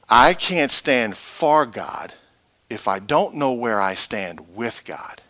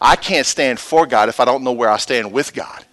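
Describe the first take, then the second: First: It is said more slowly. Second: It is said at a normal pace.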